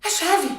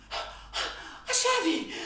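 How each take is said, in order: First: Said in the usual way. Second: Breathless whispered realization. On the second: Acted.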